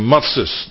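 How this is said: The word ends in an 'es' sound. "zoals de Askenazische, de Oost-Europese Joden zeggen"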